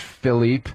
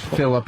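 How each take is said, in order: First: The name is said with a French pronunciation. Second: The name is said with an English pronunciation. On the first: This is how the owner says his own name. The speaker calls it wrong. "he was from France" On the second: The name is insisted on in a plain local form. The speaker calls it right. "no, it's Philip"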